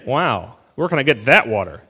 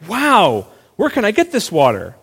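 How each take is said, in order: First: The tone sounds a little sarcastic. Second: The tone sounds sincere and eager. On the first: The speaker doubts the offer and is arguing. "a little bit sarcastic" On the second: The speaker truly wants the water. "we tend to assume she's saying"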